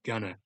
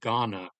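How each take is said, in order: First: The vowels are reduced and it's said quietly. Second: The vowels are full and clearly stressed. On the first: This is how people from the country say it. The speaker calls it right. "really unemphasized and like kind of quietly" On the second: This is how outsiders assume the name sounds. The speaker calls it wrong. "the vowels the way that they were originally meant to be pronounced"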